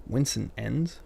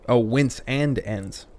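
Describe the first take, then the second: First: "Wince and ends" run together, rising as a question; puzzled misreading. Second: "wince and ends" slowly separated, falling at the end; slow "wince and ends" as it clicks; realizing the phrasing. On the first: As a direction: query "Wince and ends" as one puzzling phrase. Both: Real, not acted. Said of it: "Maybe if I could read".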